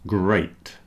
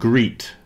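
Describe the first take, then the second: First: The vowel is an 'eh-ee' sound. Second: The vowel is a long 'ee' sound. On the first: The speaker calls it right. "It's great" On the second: The speaker calls it wrong. "great is not greet"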